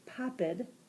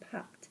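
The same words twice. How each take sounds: First: The ending is an extra id syllable. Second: The ending is a short t sound. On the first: The speaker calls it wrong. "I'm not going to yeah. say popped" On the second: The speaker calls it right. "it sounded like a T sound"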